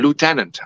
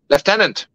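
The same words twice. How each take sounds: First: It is said with an American pronunciation. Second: It is said with a British pronunciation.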